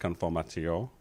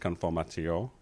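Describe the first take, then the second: First: The word is said with a French-style pronunciation. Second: The word is said with a French-style pronunciation.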